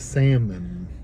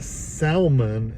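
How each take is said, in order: First: The L sound is silent. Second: The L sound is pronounced. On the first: The speaker calls it right. "The L is silent" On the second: The speaker calls it wrong. "salmon instead of"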